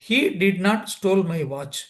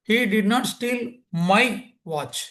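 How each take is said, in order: First: No single word is given special stress. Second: The word my carries the main stress. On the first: He did not take my watch. "சாதாரணமாக சொன்னா" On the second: He stole a different watch. "இந்த மைங்கிற வார்த்தைக்கு importance கொடுத்தேன்"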